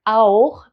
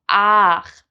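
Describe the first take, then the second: First: The vowel is the diphthong au. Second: The vowel is a plain a. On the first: "pronounced au in High Standard German" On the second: "becomes ach"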